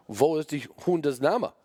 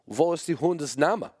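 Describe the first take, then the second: First: Put-on higher, slow German-accented question. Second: Put-on higher German-accented question, rising at the end. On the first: Imagined German judge repeating the question slowly, German accent. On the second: Imagined German judge asking the dog's name, German accent. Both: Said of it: "German judges or German immigrants".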